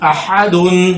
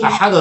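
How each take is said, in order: First: The word ends with a full -un ending. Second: The word stops on a bouncing final d. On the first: The word is joined to what follows. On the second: The reciter stops after the word.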